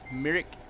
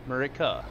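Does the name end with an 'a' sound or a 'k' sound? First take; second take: k sound; a sound. First: The name ends in a 'k' consonant sound. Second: The name ends in an 'uh' vowel sound. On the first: The speaker calls it right. "it's not how you say it... But it's Merrick" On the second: The speaker calls it wrong. "I thought it was Murica up there"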